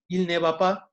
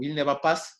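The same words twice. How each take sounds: First: The final S of pas is silent. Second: The final S of pas is pronounced.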